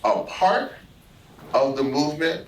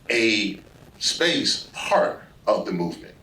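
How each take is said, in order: First: The words 'a part' run together without a gap. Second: A clear gap separates 'a' from 'part'. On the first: Someone is included within the group. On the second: Someone is kept separate from the group.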